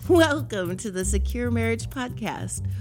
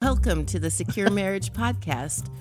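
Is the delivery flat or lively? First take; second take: lively; flat. First: It is said in a livelier, more energetic voice. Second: It is said in a flat, tired voice.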